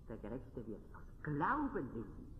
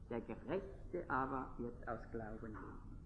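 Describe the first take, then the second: First: The word Glauben carries the main stress. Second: The word Gerechte carries the main stress. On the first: The point is faith rather than works. "nicht durch Werke" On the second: The point is who counts as righteous. "Die Betonung auf dem Thema der Gerechtigkeit"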